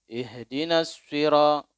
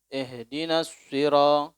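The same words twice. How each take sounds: Both takes have the same delivery.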